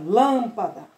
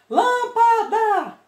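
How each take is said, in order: First: The first syllable is held longer and stronger. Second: All three syllables have the same force. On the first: "demora mais na lã" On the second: "Todas têm a mesma força"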